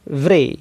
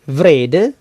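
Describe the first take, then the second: First: The d sound is dropped. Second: The d sound is pronounced. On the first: This is the informal form. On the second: This is the full form.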